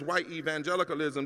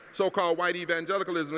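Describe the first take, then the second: First: "white" given the weight of the phrase, evangelicalism trailing off; stress on WHITE. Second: Said in the usual way. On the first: Shown as a demonstration. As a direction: lean on the word white, then let the rest fall. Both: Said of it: "the emphasis is on the word white".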